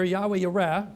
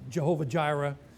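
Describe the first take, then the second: First: The name starts with a Y sound. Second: The name starts with a J sound. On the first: "The famous name here" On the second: "you probably hear people pronounce it Jehovah Jireh"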